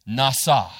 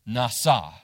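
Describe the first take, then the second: Both takes have the same delivery.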